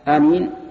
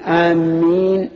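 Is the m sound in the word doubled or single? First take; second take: single; doubled. First: The m sound is single and short. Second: The m sound is doubled and held longer. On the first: It means asking God to answer. The speaker calls it right. "بمعنى اللهم استجب" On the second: It means people heading toward a place. The speaker calls it wrong. "بتشديد الميم بمعنى قاصدين"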